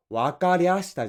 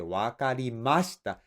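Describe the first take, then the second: First: "わかりゃした" with the ま slurred into りゃ; slurred wakaryashita. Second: "わかりました" with a clear ま; proper wakarimashita. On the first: Boss mimicking the junior's sloppy "わかりゃした", slurred. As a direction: slur "わかりゃした" lazily. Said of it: "じゃなくて". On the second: Boss showing the junior a correct "わかりました", clear. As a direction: say "わかりました" with every mora, clear ま. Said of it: "ちゃんと「ま」を言え". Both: Shown as a demonstration.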